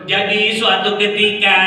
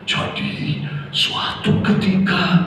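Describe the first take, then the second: First: The voice is high-pitched and sharp. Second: The voice is low and soft, like storytelling. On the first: It harms children's hearing. The speaker calls it wrong. "nggak cocok" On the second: It suits teaching young children. The speaker calls it right. "Harus suaranya seperti ini. Seperti kita mendongeng"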